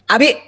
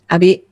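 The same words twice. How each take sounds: First: The name is called loudly and angrily. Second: The name is called sweetly and gently.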